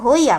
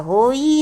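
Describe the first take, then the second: First: The final vowel is said short. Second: The final vowel is drawn out long. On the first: The speaker calls it right. "तो होई आपने कहा" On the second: The speaker calls it wrong. "होई नहीं कहा बहुत देर से"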